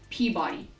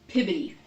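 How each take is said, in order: First: The name sounds like pee-body. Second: The name sounds like pib-bi-ty. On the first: This is the reading that follows the spelling. The speaker calls it wrong. "It is not pronounced Peabody" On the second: This is how the town's locals say it. The speaker calls it right. "It is pronounced Pibbity"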